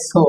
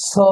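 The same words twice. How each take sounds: First: "so" with a short, pure o; "so" as spelt with a plain Bengali o-kar; common mispronunciation. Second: "so" with a gliding o-u vowel; "so" said as "soh-oo", one syllable; correct pronunciation. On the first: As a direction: say "so" without gliding the vowel. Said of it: "সাধারণত আমরা ভুল উচ্চারণ করি কি?". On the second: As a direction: round "so" off into an u glide. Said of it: "সঠিক উচ্চারণ হবে". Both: Shown as a demonstration.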